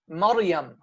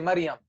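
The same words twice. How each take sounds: First: It is said in formal recitation pronunciation. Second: It is said in colloquial Syrian pronunciation. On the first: The speaker calls it right. "it should be Maryam" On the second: The speaker calls it wrong. "as we say in our slang in, in Syria, we say Maryam"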